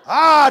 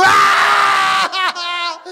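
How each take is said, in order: First: Loud high playful "Ah" mid-jump; scare yell. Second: Higher, louder "Ah!" twisting into real hurt; pain yell. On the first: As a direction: yell it as a prank shout. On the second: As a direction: let the prank shout turn into agony. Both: Retold or imitated. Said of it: "my yell changes".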